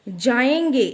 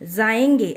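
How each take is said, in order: First: The word begins with a j sound. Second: The word begins with a z sound. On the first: The speaker calls it right. "यहाँ पर जाएंगे ऐसा है" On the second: The speaker calls it wrong. "नुक्ता लगाने से इसका pronunciation कैसा हो जाएगा ... तो ये गलत है"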